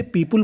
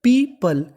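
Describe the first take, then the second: First: "पीपल" as "pee-pool", with a rounded u; mispronunciation. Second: "पीपल" as "pee-puhl", with a schwa; higher "पीपल", unrounded second vowel; correct pronunciation. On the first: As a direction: round the second vowel of "पीपल" to "पीपुल". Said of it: "बोलते हैं जो कि गलत". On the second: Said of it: "इसका सही उच्चारण है". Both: Shown as a demonstration.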